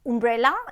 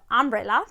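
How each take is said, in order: First: The first vowel sounds like the oo in moon. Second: The first vowel is a short uh sound. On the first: The speaker calls it wrong. "She used to say" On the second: The speaker calls it right. "instead of"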